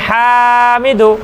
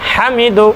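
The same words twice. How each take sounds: First: The first vowel is stretched out long. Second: The first vowel is kept short. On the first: The speaker calls it wrong. "এটা ভুল। কারণ হার মধ্যে আমি টান দিয়েছি" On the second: The speaker calls it right. "তাহলে এটাকে পড়তে হবে"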